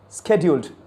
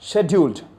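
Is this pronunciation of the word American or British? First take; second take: American; British. First: It is said with an American pronunciation. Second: It is said with a British pronunciation. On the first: "an American accent" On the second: "British accent"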